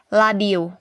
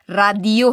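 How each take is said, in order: First: The word begins with an L sound. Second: The word begins with an R sound. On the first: The speaker calls it right. "Kay ang ilang pronounce sa radio kay ladio" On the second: The speaker calls it wrong. "Di ta mingog radio ha"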